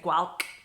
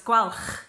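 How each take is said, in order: First: It ends in a plain hard k. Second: It ends in a strong throaty rasp. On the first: "if you struggle, just say Gwalch, which is what most English people do" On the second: "C H in Welsh is a bit like loch in Scottish. So, but it's it's more accentuated"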